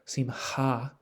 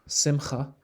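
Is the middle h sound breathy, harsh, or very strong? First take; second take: breathy; harsh. First: The middle h sound is soft and breathy. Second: The middle h sound is harsher, with another vowel.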